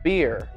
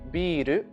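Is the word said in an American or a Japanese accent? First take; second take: American; Japanese. First: It is said in an American English accent. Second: It is said in a Japanese accent.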